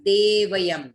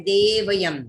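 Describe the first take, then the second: No difference in how they are said.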